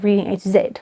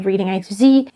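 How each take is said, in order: First: Z is said the South African way, as zed. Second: Z is said the American way, as zee.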